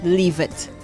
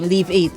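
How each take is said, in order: First: The name ends with a short 'it' sound. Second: The name ends with the word 'eight'. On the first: "I am pronouncing it this way" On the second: "or something like that"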